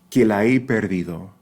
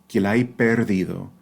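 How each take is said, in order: Both takes have the same delivery.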